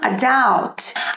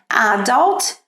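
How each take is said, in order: First: The stress is on the second syllable. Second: The stress is on the first syllable. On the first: "no inglês americano" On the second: "no British English que dá um destaque na primeira"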